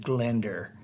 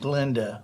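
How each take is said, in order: First: The name ends with an added R sound. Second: The name ends in a plain vowel.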